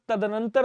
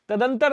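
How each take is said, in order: First: तदनंतर with "nan" sounded, "ta-da-nan-tar"; correct form. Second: तदंतर in three beats, "ta-dan-tar"; wrong form. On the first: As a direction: say all four beats of तदनंतर. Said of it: "तदनंतर होता है". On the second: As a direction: say तदंतर without the extra "nan". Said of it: "नहीं होता साहब". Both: Shown as a demonstration.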